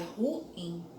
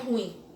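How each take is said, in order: First: The vowels u and i form two syllables. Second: The vowels u and i merge into one syllable. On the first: The speaker calls it right. "é ruim" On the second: The speaker calls it wrong. "vocês não podem dizer que é ruim"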